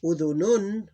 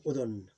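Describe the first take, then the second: First: "Udhunun" higher, louder, ending in -un; tanween ending. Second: "udhun" stopping on the first final n; vowel ending gone. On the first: Teacher reading the tanween form in full, ending pronounced. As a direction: say "Udhunun" with both n sounds. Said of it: "we ignore the vowel". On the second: Teacher showing the period removes the ending, vowel gone. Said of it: "the vowel is gone". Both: Shown as a demonstration.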